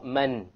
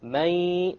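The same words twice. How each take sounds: First: The n is pronounced as a clear consonant. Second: The n is dropped, leaving only nasalization. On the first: The speaker calls it wrong. "Notice there is no man" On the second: The speaker calls it right. "you drop the noon sound. But you have a ghunna"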